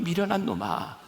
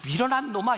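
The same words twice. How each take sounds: First: It sounds warm and gently pitying. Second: It sounds harsh and scolding. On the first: The listeners are pitied and about to be taught. The speaker calls it right. "아유" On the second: The listeners are being rebuked. The speaker calls it wrong. "이렇게 말씀하시는 거 아니라"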